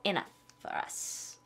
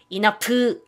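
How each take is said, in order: First: "enough for us" whispered, linked, very slow; soft linked. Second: "enough" split into flat even syllables, slow; wrong syllable-by-syllable. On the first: Teacher showing the right "enough for us", soft and linked. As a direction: breathe it out softly, all joined. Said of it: "이렇게 표현하시면 되겠죠". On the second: Teacher showing the wrong "enough" before the fix. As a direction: chop "enough" into pieces. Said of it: "enough 아니고". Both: Shown as a demonstration.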